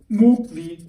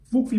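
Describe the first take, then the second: First: The T at the end of the verb is heard. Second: The T at the end of the verb is dropped.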